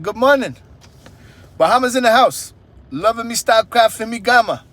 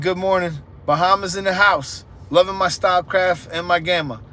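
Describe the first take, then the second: First: It is read in an imitated Bahamian accent. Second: It is read in the speaker's usual accent.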